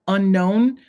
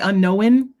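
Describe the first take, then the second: First: It is said without an extra w sound. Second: It is said with an extra w sound.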